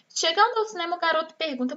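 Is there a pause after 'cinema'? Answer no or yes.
no. It is read straight through without a pause. The speaker calls it wrong. "Vou fazer a leitura então sem sinal de pontuação"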